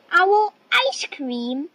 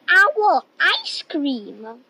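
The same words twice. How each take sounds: First: Higher, alarmed owl's question; taken aback, pitch jumping up; alarmed echo. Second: Said in the usual way. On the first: Acted. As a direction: repeat it in startled disbelief.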